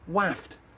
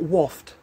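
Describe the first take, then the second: First: The vowel is an 'a' sound. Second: The vowel is an 'o' sound. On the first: The speaker calls it right. "it's spelt with an A" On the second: The speaker calls it wrong.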